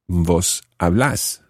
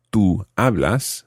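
First: Vos hablás with the stress on LÁS; stress on final syllable. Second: Tú hablas with the stress on HA; stress on first syllable. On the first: Teacher showing the vos form, hablás stressed on final syllable. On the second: Teacher contrasting the tú form, hablas stressed on first syllable. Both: Shown as a demonstration. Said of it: "notice that the stress changes here".

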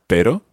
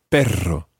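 First: "pero" with one short tap; single tapped R. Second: "perro" with a long trill; over-rolled double R. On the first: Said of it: "pronounce the single R". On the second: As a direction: overdo the roll in "perro". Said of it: "I'm kind of overruling". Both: Shown as a demonstration.

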